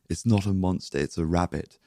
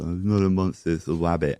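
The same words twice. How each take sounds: First: It is said clearly, without any impediment. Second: It is said with a speech impediment.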